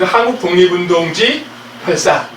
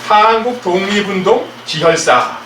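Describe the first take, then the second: First: The break comes after the syllable ji. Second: The break comes before the syllable ji. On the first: It is the bloody history of the independence movement. The speaker calls it right. "이렇게 읽어야지만, 예, 정확하게 읽는 거다" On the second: Someone is stopping the bleeding of independence fighters. The speaker calls it wrong. "이렇게 부르는 분이 있는데요. 이러면 이거는 뜻이 완전히 바뀌어가지고"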